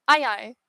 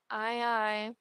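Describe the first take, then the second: First: Said in the usual way. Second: Much softer acknowledgement; subdued reply. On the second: Acted. Crew member answering the captain's orders, subdued.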